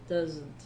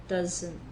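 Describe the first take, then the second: The two takes are said the same way.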